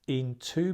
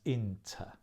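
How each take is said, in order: First: Both syllables are said with full vowels. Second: The second syllable is reduced to a weak 'er'.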